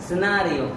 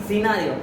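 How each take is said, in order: The two takes are said the same way.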